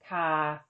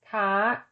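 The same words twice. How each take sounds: First: The syllable is said with a mid tone. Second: The syllable is said with a high tone. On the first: "the tone of an unmarked live syllable is mid" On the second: "with tone mark two, the tone is high"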